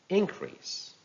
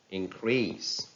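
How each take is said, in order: First: "increase" as IN-crease, high start; stress on first syllable. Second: "increase" as in-CREASE; stress on second syllable. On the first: Teacher reading a noun, "increase" stressed on IN. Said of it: "stress on the first syllable". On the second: Teacher reading a verb, "increase" stressed on CREASE. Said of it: "stress falls on the second syllable". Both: Shown as a demonstration.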